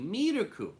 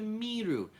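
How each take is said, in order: First: The word ends with an added syllable ku. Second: The word ends after the syllable ru. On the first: The speaker calls it right. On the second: The speaker calls it wrong.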